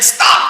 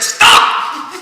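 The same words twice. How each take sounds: First: Loud barked command; sharp stop. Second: Loud breathy stop breaking into a laugh. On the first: Vishwamitra halts the falling man, loud command. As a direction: halt him with one word. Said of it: "Vishwamitra said". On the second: Indra answers Vishwamitra, loud and laughing. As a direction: counter him, half laughing. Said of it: "And Indra said". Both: Acted.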